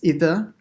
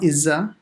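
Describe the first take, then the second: First: The middle consonant is a voiced th sound. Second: The middle consonant is a z sound. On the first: The speaker calls it right. "it's idha" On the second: The speaker calls it wrong. "so not izza"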